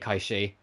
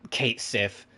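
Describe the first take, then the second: First: It is said like 'Kay-shee', Gaelic style. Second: It is said like 'Kate Sith', anglicized. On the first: This follows the name's original Gaelic origin. The speaker calls it right. "I am pronouncing it in its original Gaelic origin" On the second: This is the version used in the remake. The speaker calls it wrong. "I'm not going to say Kate, um, Kate Sith. I know that's what they'll say in Seven Rebirth"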